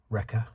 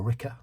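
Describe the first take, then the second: First: Said in the usual way. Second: Wrecker said as "Ricker", New Zealand style; New Zealand accent. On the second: Retold or imitated. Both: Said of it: "with her New Zealand accent".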